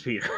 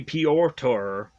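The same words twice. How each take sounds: First: Said in the usual way. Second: "Piotr" said the Polish way, PYO-tr in two syllables; Polish pronunciation. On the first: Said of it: "I'm gonna pronounce it Peter anyways". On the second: Shown as a demonstration. Vlogger offering the Polish name, careful pronunciation. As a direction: give "Piotr" its Polish sound, PYO-tr, not Peter. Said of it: "I know this is not exactly how it's pronounced".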